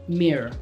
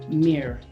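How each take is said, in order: No difference in how they are said.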